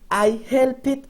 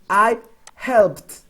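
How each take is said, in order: First: The ending is an extra syllable, like 'it'. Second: The ending is a plain t sound, no syllable. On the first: The speaker calls it wrong. "we don't say I help it. No, that's incorrect" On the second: The speaker calls it right. "like pronouncing a T at the end"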